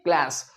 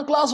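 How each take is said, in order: First: CLASS as "klæs", long ae; American pronunciation. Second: CLASS as "klaas"; British-Indian pronunciation. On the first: Teacher contrasting American English, "klæs" क्लास. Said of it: "but American English में". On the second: Teacher showing our usage, "klaas" क्लास. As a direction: say क्लास with open aa. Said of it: "हमारे यहां क्लास होता है". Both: Shown as a demonstration.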